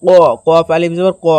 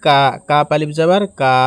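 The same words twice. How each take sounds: First: ক as Arabic qaf, from the back of the mouth with a rounded vowel; qaf pronunciation. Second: কা as a light front "kaa" with an open vowel; kaf pronunciation. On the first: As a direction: say ক as a heavy "qo", not "ka". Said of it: "এখানে হবে উচ্চারণটি". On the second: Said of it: "আর এখানে হবে". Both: Shown as a demonstration.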